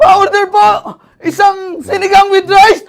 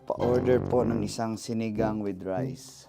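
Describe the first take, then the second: First: It is said in panic, as if chased. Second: It is said calmly.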